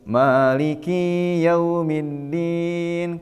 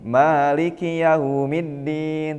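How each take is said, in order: First: The 'ki' vowel is drawn out long. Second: The 'ki' vowel is short, with no break. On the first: The Day of Judgement is the one who is my Lord. The speaker calls it wrong. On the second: The Lord is the master of the Day of Judgement. The speaker calls it right.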